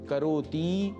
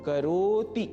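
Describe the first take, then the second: First: The final vowel is drawn out long. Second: The middle is stretched; the final vowel stays short. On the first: The speaker calls it wrong. "करोति के त में जो ह्रस्व ई है उसको दीर्घ नहीं करना है। करोति यह नहीं बोलना है।" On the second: The speaker calls it right. "करो इसको स्ट्रेच यदि करेंगे तो हमारा उच्चारण ठीक होगा। जैसे करोति, यहां त में ह्रस्व ई का ही उच्चारण हो"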